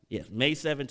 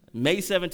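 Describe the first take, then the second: First: Said in the usual way. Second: Laughing. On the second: Real, not acted. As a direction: say May seventh with a laugh, higher and louder. Relishes his wedding date.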